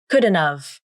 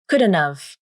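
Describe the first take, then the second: First: D is clear and T becomes a nasal flap. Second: The same.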